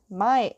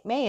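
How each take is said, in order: First: "Mai" said like the word "my"; first pronunciation. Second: "Mai" said like the month May; corrected pronunciation. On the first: Narrator slips on the girlfriend's name, "Mai" as "my". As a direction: say "Mai" to rhyme with "eye". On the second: Narrator corrects the girlfriend's name, "Mai" as "may". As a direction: say "Mai" to rhyme with "day". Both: Real, not acted. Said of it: "Mai is there".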